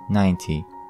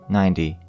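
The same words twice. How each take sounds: First: It is said in a British English accent. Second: It is said in an American English accent. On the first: "British English" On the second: "American English pronunciation"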